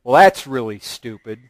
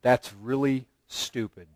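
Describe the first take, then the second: First: Mild mock scorn at her husband; lightly mocking contempt. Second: Low and much softer, flat contempt; mild mock scorn from a wife; scornful put-down. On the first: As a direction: toss off the insult. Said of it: "submission doesn't come up to him and say". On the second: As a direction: dismiss his idea coldly. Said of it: "looks and says".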